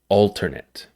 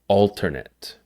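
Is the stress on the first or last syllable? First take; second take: first; first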